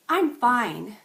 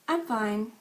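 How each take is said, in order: First: It sounds genuinely content and upbeat. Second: It sounds somewhat down and unconvinced. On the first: The person is actually doing well. "if they want to say that they actually are good" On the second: The person is doing somewhat badly. "If they want to say that they're doing somewhat bad"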